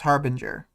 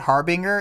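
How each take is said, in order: First: The G is soft, like a J. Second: The G is hard, like in go. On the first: The speaker calls it right. "I think it's a soft G. I think it's Harbinger" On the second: The speaker calls it wrong. "I've heard a lot of people say Harbinger, and it always sounds wrong on my ears"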